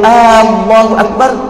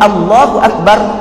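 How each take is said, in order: First: The opening vowel of Allah is drawn out long. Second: The opening vowel of Allah is short. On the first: It asks whether God is the greatest. The speaker calls it wrong. "Kalau kita panjangkan lafaz a, maka ia memberi maksud di situ ada pertanyaan" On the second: It states that God is the greatest. The speaker calls it right. "makna dia Allah Maha Besar"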